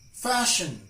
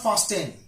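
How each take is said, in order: First: The T is silent in this word. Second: The T is sounded in this word. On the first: The speaker calls it right. "it's silent in these words" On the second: The speaker calls it wrong. "not fasten"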